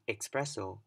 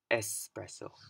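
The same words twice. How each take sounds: First: It does not begin with a clear 'es'. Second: It begins with a clear 'es' sound. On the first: The speaker calls it wrong. "You don't want to say" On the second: The speaker calls it right.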